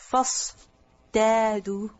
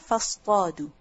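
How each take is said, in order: First: The t sound is a plain, light t. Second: The t sound is a heavy, emphatic t. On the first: This is the original form before the sound changed. The speaker calls it wrong. "it's difficult to pronounce fastadu" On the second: This is the form changed to ease pronunciation. The speaker calls it right. "So to make the pronunciation easier"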